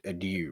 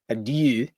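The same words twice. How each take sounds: First: It is said with an English-style pronunciation. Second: It is said with a German-style pronunciation. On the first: This is how most people say it. The speaker calls it wrong. "which most people pronounce it adieu" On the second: This is how the Austrian character says it. The speaker calls it right. "who pronounces it adieu"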